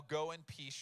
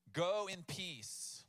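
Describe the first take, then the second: First: Said in the usual way. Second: "Go in peace" drawn out slowly, each word weighed; slow, savored repeat. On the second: Shown as a demonstration. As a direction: linger over "Go in peace" to let it sink in. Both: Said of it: "he says".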